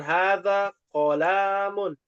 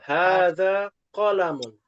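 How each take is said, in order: First: The first vowel of qalamun is long. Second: The first vowel of qalamun is short. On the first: The speaker calls it wrong. "Cara bacanya bukan hadza qalamun" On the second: The speaker calls it right. "pendek ya"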